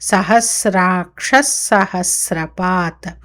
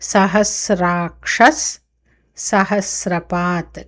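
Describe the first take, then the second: First: The two words run together without a break. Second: The two words are said with a break.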